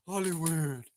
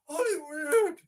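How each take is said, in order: First: Loud Hollywood dropping low and falling. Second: High, loud Hollywood with a rising end; rising shouted Hollywood. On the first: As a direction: land Hollywood heavy and low. Chanting Hollywood, final call. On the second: Chanting Hollywood, building up. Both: Pretend.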